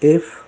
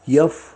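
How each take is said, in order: First: It starts with a plain vowel sound. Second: It starts with a y-glide sound. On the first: The speaker calls it right. "मी जे ज्याप्रमाणे उच्चार केलेत कृपया त्याचप्रमाणे करा" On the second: The speaker calls it wrong. "कोणीतरी यफ, ... असं बोलू नये"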